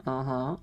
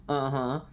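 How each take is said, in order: Both takes have the same delivery.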